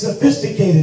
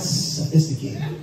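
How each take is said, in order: First: The s sounds are short and crisp. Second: The s sounds are long and drawn out. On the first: The speaker calls it right. "It's sophisticated" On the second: The speaker calls it wrong. "not sophisticated"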